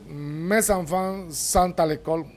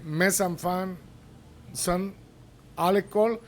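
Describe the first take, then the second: First: The t of sont links to the next vowel. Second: The t of sont is not linked.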